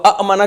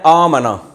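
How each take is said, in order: First: The opening vowel is clipped with a catch. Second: The opening vowel is long and smooth. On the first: This is the original underlying form. "अब अमना कितना मुश्किल है" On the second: This is how it is actually read. "तो इसको पढ़ते क्या है?"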